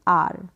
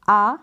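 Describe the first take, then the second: First: "आर" as long aa closing on r; R sounded. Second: "आ" as a long open aa, no r; R dropped. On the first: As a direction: end "आर" on an audible r. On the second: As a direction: draw out "आ" with the r silent. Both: Shown as a demonstration. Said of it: "आ या फिर आर pronounce".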